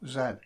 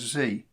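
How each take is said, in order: First: The letter is said the way England says it. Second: The letter is said the way other countries say it. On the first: "in England we pronounce Z as, well, Z" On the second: "Other countries may pronounce it as Z"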